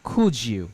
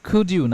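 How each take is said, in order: First: The d and y merge into a j sound. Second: A clear d sound comes before you. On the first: "আমরা বলতে পারি" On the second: "কুড ইউ না বলে"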